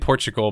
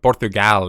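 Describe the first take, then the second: First: It is said with an American pronunciation. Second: It is said with a Portuguese pronunciation. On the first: "that's how Americans say it" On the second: "is how a Portuguese uh, pl- person would say it"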